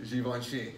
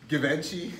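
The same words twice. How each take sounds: First: It is said in the standard way. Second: It is said in the rappers' style. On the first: The speaker calls it right. "You got it" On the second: The speaker calls it wrong. "Why do the rappers pronounce it like Louboutin and"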